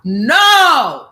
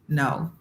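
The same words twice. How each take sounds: First: It is yelled loudly. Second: It is said at normal volume.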